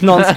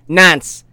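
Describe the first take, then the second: First: The vowel sounds like the one in 'con'. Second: The vowel sounds like the one in 'dance'. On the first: This is the usual way to say it. The speaker calls it right. "He never says nonce correctly" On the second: This imitates how someone else mispronounces it. The speaker calls it wrong. "he says nance"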